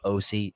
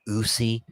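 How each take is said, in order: First: The name begins with an 'oh' vowel. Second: The name begins with an 'oo' vowel. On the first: The speaker calls it right. "when it's Osi" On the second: The speaker calls it wrong. "It just sounds horrible"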